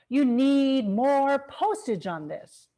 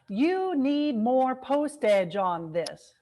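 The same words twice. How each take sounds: First: Only "postage" is stressed; small words are reduced. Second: Every word gets equal, emphatic stress. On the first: The speaker calls it right. "you get postage as a long syllable and the second syllable as the schwa, short, unclear syllable" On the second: The speaker calls it wrong. "it's not all emphatic"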